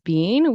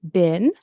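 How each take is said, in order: First: The vowel is a long 'ee' sound. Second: The vowel is a short 'i' sound. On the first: The speaker calls it wrong. "in American English, we don't pronounce it as bean" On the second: The speaker calls it right. "We tend to pronounce it as bin"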